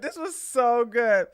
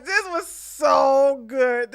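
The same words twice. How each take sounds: First: Said in the usual way. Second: Drawn-out delighted line; slow amused. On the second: Real, not acted. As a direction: savor it slowly. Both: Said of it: "I'm sorry, guys".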